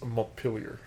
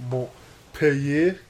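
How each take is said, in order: First: Montpelier Americanized as mont-PEEL-yer; American pronunciation. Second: Montpellier said the French way, mo-peh-YAY, drawn out; slow French "Montpellier", no L sound, questioning lift; French pronunciation. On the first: Correcting co-host because we're American, Montpelier as mont-PEEL-yer. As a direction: say "Montpelier" with a hard American L and R ending. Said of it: "because we're American". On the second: Echoing co-host's player news, Montpellier said slowly in French. French saying set against American. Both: Shown as a demonstration.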